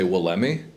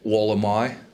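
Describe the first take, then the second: First: It is pronounced as read from spelling. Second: It is pronounced the Australian way. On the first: The speaker calls it wrong. "I read it at first. So I say Wollemi" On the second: The speaker calls it right. "the Australians say Wollemi"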